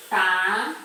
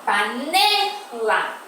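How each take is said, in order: First: "panela" split into pa, ne, la with pauses; syllable by syllable. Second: Slow "panela" with a long, strong NE; stress on middle syllable. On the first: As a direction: separate each syllable of "panela". Teacher separates syllables of example word. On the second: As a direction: stretch and push the NE in "panela". Teacher shows the stressed syllable. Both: Shown as a demonstration.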